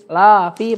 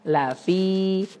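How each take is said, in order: First: The first vowel is long, the second short. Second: The first vowel is short, the second long. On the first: The speaker calls it wrong. "jangan terbalik ya" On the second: The speaker calls it right. "la-nya pendek, fi-nya dua harakat"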